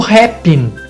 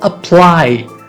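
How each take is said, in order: First: The word has added R and N sounds. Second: The word has no R or N sound. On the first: The speaker calls it wrong. "Isso revela uma deficiência fonética" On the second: The speaker calls it right. "não há aqui nenhuma letra R e também não há nenhuma letra N"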